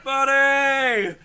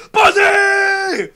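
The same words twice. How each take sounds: First: Loud, held call back; imitated group reply. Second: Very high, drawn-out scream; imitated scream. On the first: Kids in the pool answering the counselor, imitated shout. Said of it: "They were like". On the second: Counselor checking on kids in the pool, imitated scream. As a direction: scream it out like a counselor after the whistle. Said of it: "He screams out".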